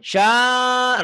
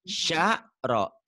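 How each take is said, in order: First: The first syllable is drawn out long. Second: The syllables are cut short with a break. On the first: The speaker calls it wrong. "nggak boleh syaro, nggak boleh panjang" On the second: The speaker calls it right. "Sya ada ada jeda"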